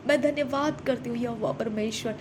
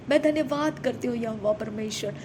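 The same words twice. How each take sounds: The two takes are said the same way.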